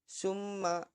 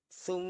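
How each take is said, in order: First: It begins with a plain 's' sound. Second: It begins with a soft 'th' sound. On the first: The speaker calls it wrong. "bukan summa" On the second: The speaker calls it right. "Ujung lidahnya kalian gigit"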